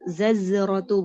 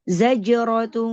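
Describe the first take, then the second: First: It starts with z, then another z sound. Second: It starts with z, then a j sound. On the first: The speaker calls it wrong. "Bukan juga zazrot zazratu bukan" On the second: The speaker calls it right. "Za pertama za, kedua jim"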